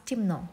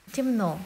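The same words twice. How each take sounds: First: Темно said "timnó", E turned to i; reduced vowel. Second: Темно as written, clear E in the first syllable; spelling pronunciation. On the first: Teacher showing what we pronounce, темно with reduced E. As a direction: say темно with short "i", stress on final O. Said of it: "but we pronounce". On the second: Teacher showing what we write, темно with unreduced E. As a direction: sound out темно with a full "ye". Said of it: "we write". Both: Shown as a demonstration.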